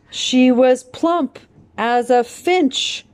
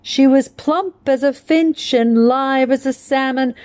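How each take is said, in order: First: "She was plump as a finch." said slow and high, stress punched on plump and finch; anapestic stress demo. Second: "She was plump as a finch" flowing in the poem, plump and finch stressed in rhythm; poem recitation. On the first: Shown as a demonstration. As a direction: tap out the beat, leaning hard on plump and finch. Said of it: "double stress on plump and finch". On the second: Acted. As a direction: let the line bounce in its anapestic lilt.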